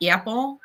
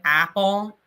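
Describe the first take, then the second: First: "apple" with a raised, tense Cleveland a, like "eh-pple"; "apple" with the flat, raised northern Ohio vowel. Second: "apple" with an open, flat a as in cat; "apple" in a plain southern Ohio way with a broad a. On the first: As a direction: say "apple" the way a Clevelander does, first vowel pushed up toward eh. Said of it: "a friend from Cleveland who says". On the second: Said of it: "I say, like, apple". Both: Shown as a demonstration.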